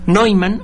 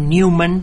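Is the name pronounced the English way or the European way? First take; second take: European; English. First: The name has the original European pronunciation. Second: The name has an English pronunciation. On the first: "en el europeo original" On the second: "si lo pronuncia usted en inglés"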